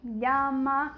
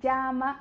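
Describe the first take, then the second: First: The ll sounds like Portuguese lh. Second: The ll is a strong, hard consonant. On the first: This is how it sounds in other countries. "com o som do L H" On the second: This is how it sounds where the speaker lived. "É bem forte esse L L na região que eu morei lá"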